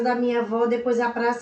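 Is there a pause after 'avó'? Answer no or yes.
no. There is no pause after avó. The speaker calls it wrong. "Imagina se não tivesse a vírgula"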